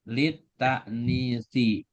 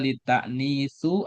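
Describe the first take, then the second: First: The word ends in an i vowel. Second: The word ends in a u vowel. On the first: The speaker calls it right. "Jadi yang betul litaknisi" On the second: The speaker calls it wrong. "Jadi nggak boleh dibaca litaknisu"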